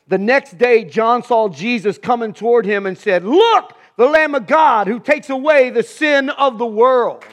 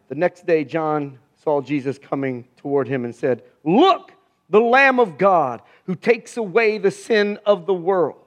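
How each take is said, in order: First: It is read with enthusiasm and strong feeling. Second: It is read plainly, without much feeling.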